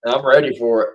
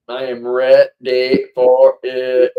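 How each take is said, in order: First: Said in the usual way. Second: Every word slowed and weighted, "I am ready for it"; slow, emphatic. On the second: Shown as a demonstration. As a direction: lean hard on "am" and drag out "for it".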